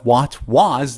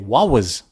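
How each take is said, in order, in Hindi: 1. 'what' के अंत में T का उच्चारण किया जाता है। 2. 'what' के अंत में T छोड़ दिया जाता है। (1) "instead of what was" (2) "they remove the T and say wa"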